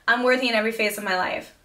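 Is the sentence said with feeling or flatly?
flatly. It is said plainly, without emotional feeling. The words are only recited. The speaker calls it wrong. "If I just say"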